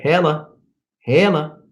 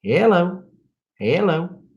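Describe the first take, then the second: First: "Hella" pitched up, ending in a short "uh"; trying out hella. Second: High-pitched Southern "hello"; exaggerated Southern accent. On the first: Viewer asks him to say it, "hella" pitched up in demonstration. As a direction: say "hella" higher, as a quoted word. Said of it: "No, I don't say hella". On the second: Showing he's not quite that Southern, mock Southern accent. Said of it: "I'm not quite that Southern". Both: Shown as a demonstration.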